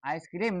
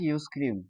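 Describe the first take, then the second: First: The word begins with an eye sound. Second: The word begins with a you sound. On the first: The speaker calls it right. "অবশ্যই আইসক্রিম" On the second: The speaker calls it wrong. "আইসক্রিম নাকি ইউজক্রিম"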